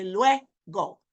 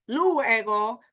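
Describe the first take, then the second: First: Luego slow, as "LWEH... go"; stress on LUE. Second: Luego drawn out as "LOO-eh-go"; wrong split vowels. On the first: Teacher showing the strongest sound, stress on LUE. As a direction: put the power on lue in luego. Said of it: "that's the power in lue". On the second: Teacher showing what she's not saying, split vowels. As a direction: separate the u from e in luego. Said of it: "I'm not saying luego". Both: Shown as a demonstration.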